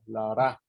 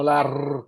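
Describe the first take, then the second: First: "ra" with a soft single-tap R. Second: Strong rolled Spanish R, held long; trilled R. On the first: Speaker clarifying a phoneme to colleagues, "ra" softly tapped. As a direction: tap the "r" of "ra" lightly, as in "pero". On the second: Teacher showing students the wrong sound, "r" strongly trilled. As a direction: roll the "r" in "la r" hard and louder. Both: Shown as a demonstration. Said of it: "la R suave".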